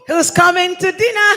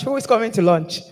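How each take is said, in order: First: Loud, high call to everyone; yelling across the room. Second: Said in the usual way. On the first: Real, not acted. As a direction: shout it out to the whole hall. Calling everyone to the meal.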